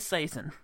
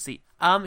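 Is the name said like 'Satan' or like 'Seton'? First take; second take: Satan; Seton. First: The name sounds like the word 'Satan'. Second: The name sounds like the word 'Seton'. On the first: This is how some other people say it. "Some people say Satan" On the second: This is how it is said in this production. "but this one's Seton"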